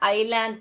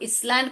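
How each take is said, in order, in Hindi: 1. यह 'eye' से शुरू होता है और s की आवाज़ नहीं निकलती। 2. यह 'is' से शुरू होता है और s की आवाज़ निकलती है। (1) "आइलैंड पढ़ने का" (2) "इसलैंड करके नहीं पढ़ने का"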